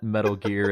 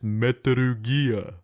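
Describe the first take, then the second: First: It is said in a plain, everyday voice. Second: It is said in a deep announcer voice. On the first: "it's not Metal Gear" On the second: "I go into like T V announcer voice"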